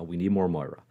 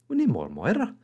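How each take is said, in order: First: It is said in the speaker's normal voice. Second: It is said in a put-on Moira voice.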